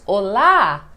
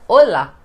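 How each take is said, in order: First: The stress is on the last syllable. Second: The stress is on the first syllable. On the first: The speaker calls it right. "Tem um acento no A, então é olá" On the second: The speaker calls it wrong. "A gente não fala como no espanhol olá"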